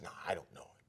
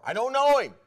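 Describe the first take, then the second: First: Low, whispered denial; very soft, furtive disowning; hushed denial. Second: High, loud shouted denial; vehement, acted outburst of disowning; swearing denial. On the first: Acted. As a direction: whisper it as if afraid to be overheard. Peter's first hushed denial, acted. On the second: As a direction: swear it at full voice. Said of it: "And he swore".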